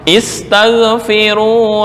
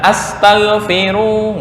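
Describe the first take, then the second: First: The word begins with an i vowel. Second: The word begins with an a vowel. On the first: The speaker calls it right. "Asal adalah dibaca kasrah" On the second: The speaker calls it wrong. "Bukan astaghfiru, nggak"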